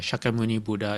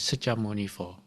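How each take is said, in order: First: The name is said with Sanskrit-style sounds. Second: The name is said with Chinese sounds.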